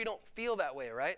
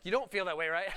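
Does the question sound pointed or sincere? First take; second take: sincere; pointed. First: The question sounds sincere and genuinely curious. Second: The question sounds pointed and leading. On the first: The asker honestly wants to know the answer. The speaker calls it right. "I really honestly wanted to know" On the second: The asker is pressing for a particular answer. The speaker calls it wrong. "I didn't say it like that"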